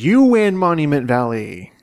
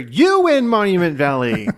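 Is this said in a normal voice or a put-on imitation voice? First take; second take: normal; put-on. First: It is said in the speaker's normal voice. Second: It is said in a put-on celebrity host voice.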